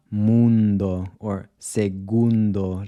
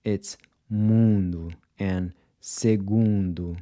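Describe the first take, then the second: First: Mundo and segundo with a Spanish N, tongue touching the roof of the mouth; Spanish pronunciation. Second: Mundo and segundo with nasal vowels and no touched N; Portuguese nasal vowels. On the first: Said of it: "So it's not ... like in Spanish". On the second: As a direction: say mundo and segundo the Brazilian way, slowly, tongue off the roof of the mouth. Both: Shown as a demonstration.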